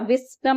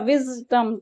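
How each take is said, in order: First: The middle consonant is a hissing s sound. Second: The middle consonant is a buzzing z sound. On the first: The speaker calls it wrong. "स नहीं बोला, विजडम नहीं बोला" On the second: The speaker calls it right. "विजडम तो जेड sound आई"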